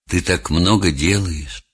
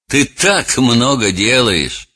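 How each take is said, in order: First: It is said in a plain, sincere tone. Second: It is said in a mocking, belittling tone. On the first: The praise is meant genuinely. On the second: The praise is meant to humiliate and ridicule.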